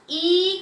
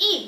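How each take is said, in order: First: ई stretched long and loud. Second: A quick, short ई. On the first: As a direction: draw out the vowel ई, as the wrong reading. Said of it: "ई करके नहीं पढ़ेंगे". (ई को लंबा खींचकर) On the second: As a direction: cut the vowel ई short, don't stretch it. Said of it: "क्या पढ़ेंगे? सिर्फ ई". (छोटी ई, बिना खींचे) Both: Shown as a demonstration.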